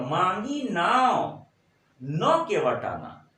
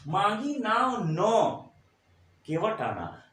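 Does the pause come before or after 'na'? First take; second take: before; after. First: The pause comes before 'na'. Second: The pause comes after 'na'.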